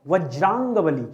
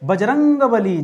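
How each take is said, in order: First: It begins with a 'v' sound: Vajrang. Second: It begins with a 'b' sound: Bajrang. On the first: The speaker calls it right. "शब्द था वज्रांग बली।" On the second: The speaker calls it wrong. "बजरंग बली शब्द ही नहीं है भाई, गलत शब्द है।"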